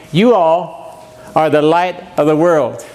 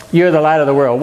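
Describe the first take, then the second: First: Solemn reading of the text; slow scripture recitation to the congregation. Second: Said in the usual way. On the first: Shown as a demonstration. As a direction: read it slow and deliberate, like a verse. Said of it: "So our text tonight we just read". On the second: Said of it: "So what does Jesus mean".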